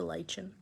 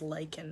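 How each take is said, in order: First: The word does not sound like 'liken'. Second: The word sounds just like 'liken'. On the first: The speaker calls it wrong. "or lichen" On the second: The speaker calls it right. "I love pronouncing lichen as lichen"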